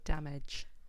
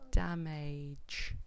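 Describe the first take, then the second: First: The second vowel is a reduced, weak sound. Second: The second vowel is a full 'a' sound. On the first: The speaker calls it right. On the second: The speaker calls it wrong.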